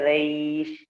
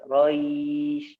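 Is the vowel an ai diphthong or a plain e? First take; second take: plain e; ai diphthong. First: The vowel is a plain e sound. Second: The vowel glides from a to i. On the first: The speaker calls it wrong. "Tidak boleh Reish" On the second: The speaker calls it right. "ya cara bacanya Roy"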